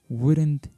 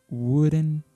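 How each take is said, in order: Both takes have the same delivery.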